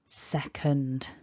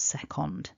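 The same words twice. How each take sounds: First: The second syllable has a weak schwa vowel. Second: The second syllable has a full O vowel. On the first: The speaker calls it right. "the way that we do that in this word is with that schwa sound. So it's second" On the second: The speaker calls it wrong. "not second"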